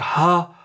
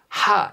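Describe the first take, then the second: First: The syllable is said plainly without extra breath. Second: The syllable is said with a strong breathy puff. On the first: "입김 없는 일반 하도 있어요. 그냥 하" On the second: "이거는 입김하니까"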